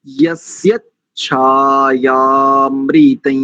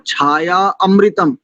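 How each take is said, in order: First: Chanted, यस्य छायामृतं slow, छायामृतं joined with long आ; chanted, छायामृतं, slow and joined, the right way; correct joined chant. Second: छाया अमृतम split apart, a full म at the end; छाया अमृतम broken in two, wrongly; wrong split reading. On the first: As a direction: chant छायामृतं as one smooth word. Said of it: "तो देखो जैसे मैंने किया". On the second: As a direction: mimic the students' mistake: छाया अमृतम. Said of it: "जैसे कई लोग करते हैं ना". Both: Shown as a demonstration.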